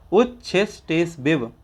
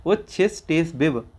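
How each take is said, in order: First: उच्छिस टेस बिब with बिब said wrong; the wrong reading of उच्छिस टेस बिब; wrong version. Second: उच्छिस टेस बिब said correctly; the right reading of उच्छिस टेस बिब; corrected version. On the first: Teacher's slip while reading उच्छिस टेस बिब. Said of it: "माफ़ कीजिएगा, बिब है". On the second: Teacher correcting himself on उच्छिस टेस बिब. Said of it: "बिब है". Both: Shown as a demonstration.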